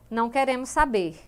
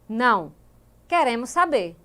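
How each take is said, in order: First: It is said without a pause after 'Não'. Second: There is a pause after 'Não'.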